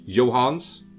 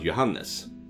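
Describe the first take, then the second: First: The middle E sound is dropped. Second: The middle E sound is pronounced. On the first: This is the English way of saying the name. "Is that how you say it in English?" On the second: This is the Swedish way of saying the name. "in Swedish you uh, uh, pronounce the E as well"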